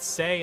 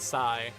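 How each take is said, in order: First: The name has the vowel of 'day'. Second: The name has the vowel of 'high'. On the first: "pronouncing it Say"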